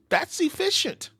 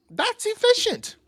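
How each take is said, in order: First: Impressed. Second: Very high, slow, drawn-out praise; much higher impressed repeat; impressed squeal. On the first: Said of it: "repeated with emphasis". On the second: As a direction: stretch it up high in awe. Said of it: "repeated higher". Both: Real, not acted.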